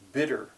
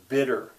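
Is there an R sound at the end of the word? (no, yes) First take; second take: yes; yes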